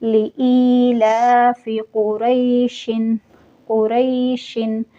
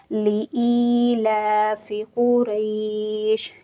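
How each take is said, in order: First: Slow chanted recitation keeping the double kasra, कुरैशिन with -in; recited without pause. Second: Slow chanted recitation ending कुरैश with sukun, no -in; recited with pause. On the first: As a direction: carry on through कुरैशिन without stopping. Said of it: "दो ज़ेर को पढ़ूँगी". (कुरैशिन को दो ज़ेर के साथ, बिना रुके धीमी तिलावत) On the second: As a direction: stop on कुरैश cleanly, breath breaks after it. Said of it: "कुरैश पढ़ रही हूँ". (कुरैश पर रुककर सुकून के साथ धीमी तिलावत) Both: Shown as a demonstration.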